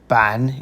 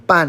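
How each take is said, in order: First: The syllable is said with a low dipping tone. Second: The syllable is said with a sharp falling tone. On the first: It means board. "third tone" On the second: It means half. "fourth tone ban is half"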